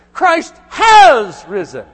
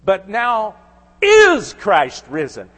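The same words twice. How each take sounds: First: "Christ has risen" shouted out, higher, slow and loud; proclaimed. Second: "But now is Christ risen" with risen stretched slow and pushed louder; emphasized reading. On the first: Preacher proclaiming the risen Christ to the congregation, shouting. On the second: Preacher showing how Clay should have read it, slow and emphatic. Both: Shown as a demonstration. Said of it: "I would have emphasized this word".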